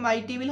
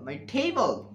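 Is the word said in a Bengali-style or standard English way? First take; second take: Bengali-style; standard English. First: It uses a Bengali-style pronunciation of table. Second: It uses a standard English pronunciation of table. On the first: The speaker calls it wrong. "হবে না" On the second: The speaker calls it right. "হবে কি"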